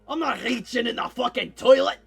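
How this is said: It is said in the dwarf's put-on accent.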